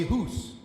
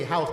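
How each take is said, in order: First: "hoose" with a tight oo vowel for house; "hoose" in a Maryland Eastern Shore accent; Eastern Shore pronunciation. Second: Said in the usual way. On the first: Shown as a demonstration. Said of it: "they say hoose". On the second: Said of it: "they don't say house".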